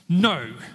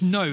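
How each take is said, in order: First: It is said defiantly, like a stomping toddler. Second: It is said in a plain, neutral way.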